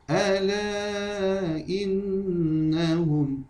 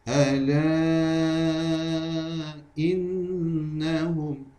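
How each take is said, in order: First: The vowel is held for two counts. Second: The vowel is held for four counts. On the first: "kita baca dengan dua harakat pula" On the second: "seterusnya kita baca dengan empat harakat"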